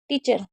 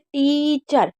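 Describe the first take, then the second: First: The first vowel is clipped short and quick. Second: The first vowel is drawn out slowly. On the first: The speaker calls it wrong. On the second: The speaker calls it right.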